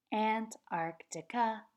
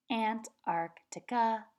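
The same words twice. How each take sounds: The two takes are said the same way.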